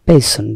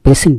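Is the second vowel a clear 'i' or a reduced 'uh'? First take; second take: reduced 'uh'; clear 'i'. First: The second syllable has a reduced 'uh' vowel. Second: The second syllable has a clear 'i' vowel. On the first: The speaker calls it right. "আসলে উচ্চারণটা বেসন" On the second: The speaker calls it wrong. "বেসিন বলে"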